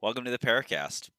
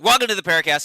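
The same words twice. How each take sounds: First: It is said with low energy. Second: It is said with high energy.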